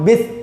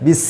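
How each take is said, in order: First: The s sound has no sharp whistling hiss. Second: The s sound has a sharp whistling hiss. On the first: The speaker calls it wrong. "itu salahnya dari segi apa? Dari segi sifat shofirnya tidak ada" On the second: The speaker calls it right. "shofir itu bunyinya tajam"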